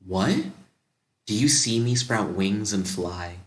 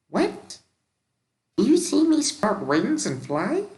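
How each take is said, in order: First: It is said in a slightly raised natural voice. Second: It is said in a put-on whiny voice. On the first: The speaker calls it right. "I just do a slightly higher version of my own voice" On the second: The speaker calls it wrong. "You hear a whiny voice say"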